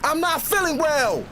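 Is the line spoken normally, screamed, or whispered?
screamed. It is screamed very loudly. "Scream it with me"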